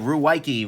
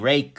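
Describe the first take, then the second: First: The name sounds like 'Ruwaiki', with several syllables. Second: The name sounds like 'Rake', as one syllable. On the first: This is the speaker's own everyday pronunciation. "so I say Ruwaiki" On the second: This is how the company itself says it. "I think they pronounce it Rake"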